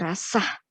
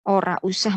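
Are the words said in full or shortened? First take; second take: shortened; full. First: The words are merged into one shortened word. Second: The words are said in their full form. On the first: This is the everyday spoken form. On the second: This is the standard form.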